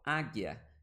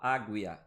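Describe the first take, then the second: First: The U is silent after the G. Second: The U is pronounced after the G. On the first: The speaker calls it right. "eu falo águia. Então esse U também não está sendo pronunciado" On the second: The speaker calls it wrong. "eu não falo águia"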